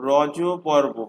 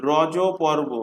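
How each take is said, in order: Both takes have the same delivery.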